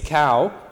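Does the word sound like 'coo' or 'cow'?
cow. The vowel glides like 'ow' in 'now'. This is the speaker's own everyday pronunciation. "So for me, it's cow"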